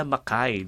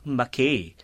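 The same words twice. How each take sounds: First: Mackay ending in kai, softer; Mackay the Australian way, quietly; correct way. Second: Mackay read as Mak-ee; Mackay, American-style ending; Mackay, wrong American way. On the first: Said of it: "ganun pala yung pronunciation". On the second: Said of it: "ganun mo siya i-pronounce". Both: Shown as a demonstration.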